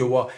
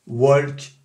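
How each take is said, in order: First: "walk" with no L sounded; L-less "walk"; silent L. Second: "walk" with the L wrongly sounded; pronounced L. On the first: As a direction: say "walk" as "wok", L left out. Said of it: "on ne prononce pas le L". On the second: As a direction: say "walk" with an audible L before the K. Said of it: "qui vont prononcer le L". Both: Shown as a demonstration.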